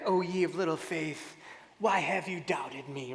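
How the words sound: It sounds harsh and condemning.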